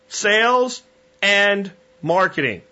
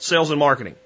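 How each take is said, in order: First: There is a clear break before marketing. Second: The words run together without any break. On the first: Sales and marketing are two separate disciplines. The speaker calls it right. "Sales and comma dash squiggly line, get it through your head, separate thing, marketing" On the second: Sales and marketing are treated as one thing. The speaker calls it wrong.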